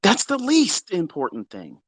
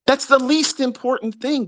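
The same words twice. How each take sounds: First: Said in the usual way. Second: Least important thing thrown up much higher; exasperated repeat. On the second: Shown as a demonstration. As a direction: say it again pitched high in disbelief.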